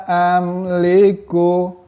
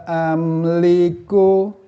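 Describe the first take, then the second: No difference in how they are said.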